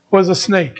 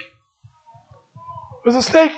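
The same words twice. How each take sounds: First: Said in the usual way. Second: Drawn out slowly, higher, hushed; slow dramatic reveal. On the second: Acted. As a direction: stretch every word of It was a snake to build dread.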